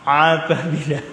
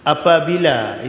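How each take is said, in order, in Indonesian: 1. Vokal pembuka itu ditekan dari tenggorokan. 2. Vokal pembuka itu biasa dan ringan. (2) "Kalau kita sebut apabila, itu a"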